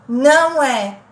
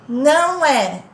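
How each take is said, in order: The two takes are said the same way.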